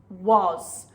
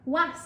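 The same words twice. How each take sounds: First: The vowel sounds like 'oh'. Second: The vowel sounds like 'ah'. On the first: The speaker calls it right. "it's an oh, oh, oh sound" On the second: The speaker calls it wrong. "it's not an ah sound"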